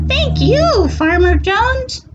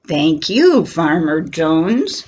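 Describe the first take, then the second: First: Cat voice. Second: Cow voice. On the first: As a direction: thank him like a tiny kitten. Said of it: "says the cat". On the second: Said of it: "says the cow". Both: Acted.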